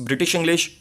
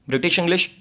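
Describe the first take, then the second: Both takes have the same delivery.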